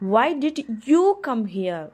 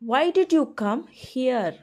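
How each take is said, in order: First: The stress falls on the word you. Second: The stress falls on the word here. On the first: Someone else was the one asked to come. "நான் அவனை தானே வர சொன்னேன்" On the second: The listener was asked to come somewhere else. "நான் உன்னை அங்கே தானே வர சொன்னேன்"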